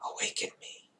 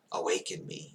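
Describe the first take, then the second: First: "Awaken me" whispered, unvoiced and soft; sighed whisper. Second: Breathed. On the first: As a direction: sigh it out half-conscious. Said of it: "once again it sighs". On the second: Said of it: "it breathes". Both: A narrator's reading.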